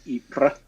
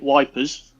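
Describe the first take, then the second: First: The name begins without a W sound. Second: The name begins with a W sound. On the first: This is the town's standard name. "it's it's spelled Y P R E S" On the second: This is the old British soldiers' nickname for the town. "as the British used to call it"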